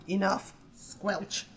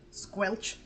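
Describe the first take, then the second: First: Slow deliberate squelch. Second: Squelch sound. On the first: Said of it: "Grim just went like". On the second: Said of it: "takes her paw and goes like". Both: Retold or imitated.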